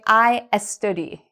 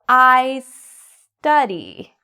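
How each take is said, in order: First: An extra vowel sound comes before the s. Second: The s follows straight on with no extra vowel. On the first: The speaker calls it wrong. "a common mistake I hear many of my students make. They say" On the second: The speaker calls it right. "slowly bring it together"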